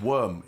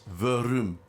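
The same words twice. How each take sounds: First: Said in the usual way. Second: "verum" said as two syllables, ve-rum; two-syllable pronunciation. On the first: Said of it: "it's not even worm, it's verum". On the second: Shown as a demonstration. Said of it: "It's not even worm".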